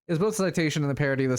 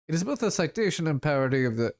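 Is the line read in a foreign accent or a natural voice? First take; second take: natural voice; foreign accent. First: It is read in a plain natural voice. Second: It is read in a put-on foreign accent. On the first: "So I'm just like not going to do accents now" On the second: "I know this is like more French"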